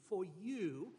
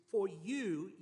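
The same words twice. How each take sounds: First: Said in the usual way. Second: "For you" with "you" pressed hard and louder; emphasis on you. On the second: Shown as a demonstration. Preacher reading the psalm to his congregation, stressing "you" in "For you". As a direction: lean into "you" in "For you". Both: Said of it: "and the emphasis here is".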